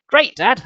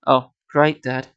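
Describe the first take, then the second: First: Higher, mock-pleased sarcasm; sarcastic. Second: Unimpressed, deadpan sarcasm; sarcastic. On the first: Jordan answering Dad's great news, lightly sarcastic. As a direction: feign enthusiasm with a lifted pitch. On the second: Jordan answering Dad's great news, dryly sarcastic. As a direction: drop the enthusiasm and say it dryly. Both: A narrator's reading. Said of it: "I said sarcastically".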